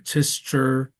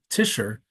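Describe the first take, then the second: First: The name is said with a German pronunciation. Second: The name is said to rhyme with Fisher. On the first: The speaker calls it wrong. "like the Germans would, but it's none of those things" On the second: The speaker calls it right. "It's like Fisher, except instead of F, it's a T"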